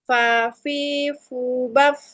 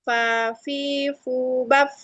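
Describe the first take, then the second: No difference in how they are said.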